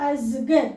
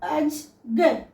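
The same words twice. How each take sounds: First: "అజ్గర్" run together as az-gar, lower; "అజ్గర్" linked in two beats, ending on bare r; joined half letters. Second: "అజ్గర్" very slowly, pause between aj and gar; "అజ్గర్" as two separated syllables; split into halves. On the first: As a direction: say "అజ్గర్" as one word, no final vowel. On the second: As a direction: break "అజ్గర్" in two at the bare j. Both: Shown as a demonstration. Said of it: "వీటిని ఆఫ్ చదువుతాం".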